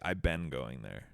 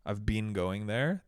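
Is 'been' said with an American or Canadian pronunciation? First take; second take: American; Canadian. First: 'Been' is said the American way. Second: 'Been' is said the Canadian way. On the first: "Americans always ... they say" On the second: "instead of saying like"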